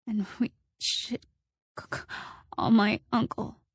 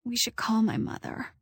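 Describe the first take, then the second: First: Shaky, stammering over call; stuttering. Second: Weak, shaky voice. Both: A narrator's reading. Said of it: "I was stuttering now".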